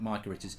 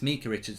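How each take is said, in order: First: The first vowel of the name sounds like 'eye'. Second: The first vowel of the name sounds like 'ee'. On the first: The speaker calls it wrong. "not Micah Richards" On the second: The speaker calls it right. "It's Mika Richards"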